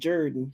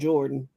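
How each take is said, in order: First: The first vowel sounds like 'er', as in Jerdan. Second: The first vowel sounds like 'or', as in Jordan. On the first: "they pronounce it Jordan" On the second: "it's spelled Jordan"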